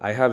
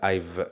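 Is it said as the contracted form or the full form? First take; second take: full form; contracted form. First: Both words are said in full, separately. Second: The two words are merged into one syllable. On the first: The speaker calls it wrong. "I have இல்ல" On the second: The speaker calls it right.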